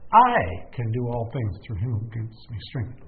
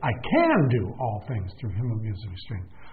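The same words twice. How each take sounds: First: The word "I" carries the emphasis. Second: The word "can" carries the emphasis.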